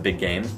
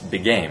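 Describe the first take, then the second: First: Both words are stressed. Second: Only the second word is stressed. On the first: The speaker calls it right. "you need to stress both of them" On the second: The speaker calls it wrong. "she only stresses the word game"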